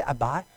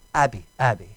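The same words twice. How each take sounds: First: "Abai" ending like "eye"; questioned pronunciation. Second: "Abi" ending in an "ee" sound; corrected pronunciation. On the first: Preacher checking a word with listeners, saying "Abai". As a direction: say "Abai" with a French-style ending. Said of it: "Do we say Abai?". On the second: Preacher correcting his French-influenced word to "Abi". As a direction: say "Abi" low, with a short final "ee". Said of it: "Yeah, that's my French". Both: Shown as a demonstration.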